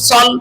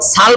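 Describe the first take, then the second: First: The syllable is said with a heavy, full-mouthed vowel. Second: The syllable is said with a light, thin vowel. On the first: The speaker calls it right. "সল হবে কেন বলেন? ইস্তিলার কয় হরফ?" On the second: The speaker calls it wrong. "সাল বলা যাবে?"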